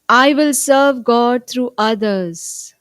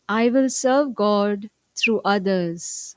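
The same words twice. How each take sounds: First: The sentence is spoken loudly. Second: The sentence is spoken at normal volume. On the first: "let's affirm together loudly" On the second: "In a regular voice now"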